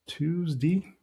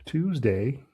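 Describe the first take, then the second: First: Tuesday ending in a short "dee"; regional "Tuesdee". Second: Tuesday ending in a clear "day"; full "day" ending. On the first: Trader showing how some regions say it, Tuesday as "Tuesdee". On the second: Trader showing the other regional way, Tuesday with full "day". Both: Shown as a demonstration. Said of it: "depending on where you're from".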